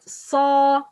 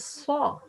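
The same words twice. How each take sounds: First: The sound is made without rounding the lips. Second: The sound is made with rounded lips. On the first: The speaker calls it right. "we shouldn't be uh, use uh, the the lips" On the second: The speaker calls it wrong. "not saw"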